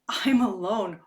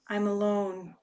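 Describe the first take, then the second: First: It is said in a pleased, delighted tone. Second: It is said in a downcast, lonely tone. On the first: Being alone is welcome free time. "we can choose to relish and really, really go" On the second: Being alone feels lonely. "oh, I'm alone and I feel lonely"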